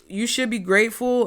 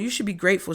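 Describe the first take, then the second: First: It is said in a sincere, gentle tone. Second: It is said in a snide, dismissive tone. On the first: Good fortune really is on its way. The speaker calls it right. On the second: The listener's complaints are being brushed off. The speaker calls it wrong.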